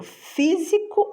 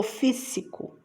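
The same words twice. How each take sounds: First: Said in the usual way. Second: Second "físico" with a hissed S in place of Z; S sound. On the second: Shown as a demonstration. Teacher offering the wrong option, "físico" with voiceless S. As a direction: say "físico" as FÍ-ssi-co. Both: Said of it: "porque eu quero som de Z".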